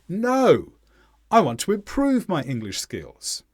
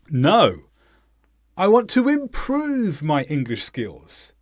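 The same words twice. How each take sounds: First: The word no is stressed. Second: The word improve is stressed.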